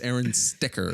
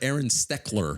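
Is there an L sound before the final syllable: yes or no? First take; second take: no; yes. First: No L sound comes before the final syllable. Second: An L sound comes before the final syllable. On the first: The speaker calls it right. "It's Aaron Stecker" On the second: The speaker calls it wrong. "It's not Aaron Steckler"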